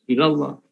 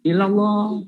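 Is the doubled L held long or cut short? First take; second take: cut short; held long. First: The doubled L sound is cut short. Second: The doubled L sound is held long. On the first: The speaker calls it wrong. "Illallah tidak jelas tasdidnya" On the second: The speaker calls it right. "Benar, ada"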